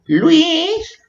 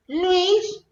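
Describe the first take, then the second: First: Very high, drawn-out playful call; mock calling out. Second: Very high, softened echo of a call; mock faint calling. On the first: Playfully calling to the boyfriend Luis, high-pitched call. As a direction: call the name in a put-on squeal. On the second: Calling the boyfriend Luis a second time, high and soft. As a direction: repeat the name in a small, high put-on voice.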